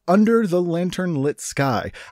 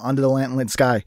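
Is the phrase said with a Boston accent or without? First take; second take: without; Boston accent. First: It is said carefully without a Boston accent. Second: It is said slurred in a Boston accent.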